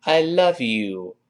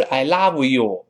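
First: Slow I love you with a clean v; I love you, teeth on lip; correct I love you. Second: I love you with love as lau; I love you with an open ah, no v; ugly I love you. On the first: Teacher models a slow I love you. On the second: Teacher mocks the ugly I love you. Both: Shown as a demonstration. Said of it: "好难听哦".

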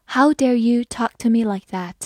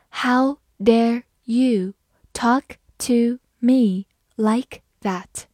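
First: Said in the usual way. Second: Very slow, a pause after each word; slow reading. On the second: Shown as a demonstration. Teacher demonstrating the sentence to learners, slowly word by word. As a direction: spell out the sentence word by word, unhurried. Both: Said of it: "好，我慢慢来读".

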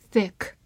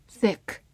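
No difference in how they are said.

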